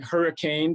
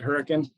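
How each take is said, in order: First: Pronounced like the ordinary word for a storm. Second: Pronounced the way people from the town say it. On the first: "it looks like hurricane" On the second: "locals pronounce it Hurricane"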